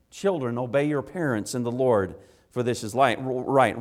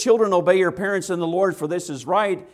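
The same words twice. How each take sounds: First: Said in the usual way. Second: Preached quote. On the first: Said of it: "plain restatement". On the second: Acted. Quoting the verse with force.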